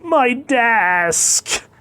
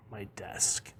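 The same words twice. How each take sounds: First: High, loud, drawn-out cry; panicked yell. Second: Low, very soft aside; muted grumble. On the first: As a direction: shout it high in alarm. Producer yells as desk is trampled. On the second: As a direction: drop it low and quiet. Callback to desk, muttered as aside. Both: Acted.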